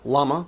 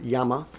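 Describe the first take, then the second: First: It is said with an English pronunciation. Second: It is said with a Spanish pronunciation. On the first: "You you gringos call it llama" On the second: "pronounce it in Jap in Spanish as llama"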